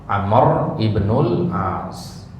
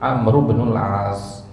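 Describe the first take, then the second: First: The i of ibnul is pronounced separately. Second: The words are joined and the i is dropped. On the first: The speaker calls it wrong. "hanya saja sering kita dengarnya apa? ... untuk memudahkan aja" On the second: The speaker calls it right. "yang benar pengucapan nama sahabat itu adalah digabung"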